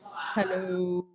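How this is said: It is said in a low voice.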